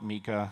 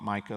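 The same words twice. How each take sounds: First: It is said the way Europeans say it. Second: It is said like the stone mica. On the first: "I think Europeans tend to call it MiCA" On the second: "I call it MiCA like the stone"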